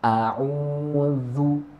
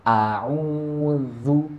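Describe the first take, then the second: Both takes have the same delivery.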